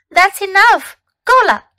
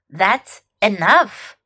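First: Sharp, loud, high "enough"; scolding. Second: Said in the usual way. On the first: Shown as a demonstration. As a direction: stop the kids at once. Teacher drills a scolding phrase.

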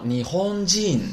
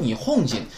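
First: 你轰进 held high and level, then falling; correct pronunciation. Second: 你哄进 with choppy Chinese tones, hong dipping; mispronunciation. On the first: Shown as a demonstration. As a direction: smoothly lengthen 轰进 in 你轰进, dropping at the end. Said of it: "所以说应该读成". (你轰进标准读法，中间平高，结尾降调) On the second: Retold or imitated. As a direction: mimic learners saying 你哄进 quickly in Chinese tones. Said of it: "他们读成什么呀". (模仿错误读音，把你哄进读成中文声调)

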